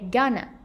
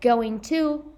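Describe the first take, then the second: First: The words blend into a reduced form. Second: Both words are said fully and separately.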